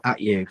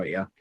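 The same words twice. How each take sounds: First: Said in the usual way. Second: Black Country "at you" with the t dropped, "a' you"; Black Country accent, "at" swallowed into "you". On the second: Real, not acted. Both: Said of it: "that's me in the Black Country coming out there".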